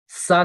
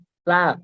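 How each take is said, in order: First: The consonant is a hissing s sound. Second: The consonant is a soft th sound. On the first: The speaker calls it wrong. "सा नहीं" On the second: The speaker calls it right. "थोड़ी-सी ज़ुबान ऊपर वाले दाँत से बाहर निकालिए"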